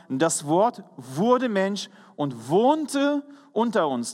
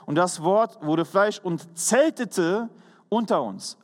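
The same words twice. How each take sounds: First: "wohnte" drawn out slowly and leaned on, the key word of the verse; slow stress on wohnte. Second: "zeltete" drawn out slowly and leaned on as the new word; slow stress on zeltete. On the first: Preacher reading one translation to his congregation, slow weight on "wohnte". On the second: Preacher contrasting the other translation for the congregation, slow weight on "zeltete". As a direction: read the verse slowly and linger on "zeltete". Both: Shown as a demonstration. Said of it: "dort wird auch ein anderes Wort gebraucht".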